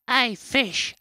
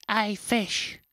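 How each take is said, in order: First: Loud, high squirrel call across the water. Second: Squirrel calling again. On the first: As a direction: shout up at the fish like a cheeky squirrel. Squirrel calls out to fish. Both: Acted.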